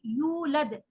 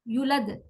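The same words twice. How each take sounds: First: The first vowel is long. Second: The first vowel is short. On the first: The speaker calls it right. "यू लंबा करना है" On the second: The speaker calls it wrong. "वाव को हमने ड्रॉप कर दिया"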